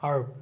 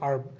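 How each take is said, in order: No difference in how they are said.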